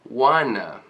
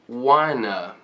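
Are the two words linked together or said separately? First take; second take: linked; linked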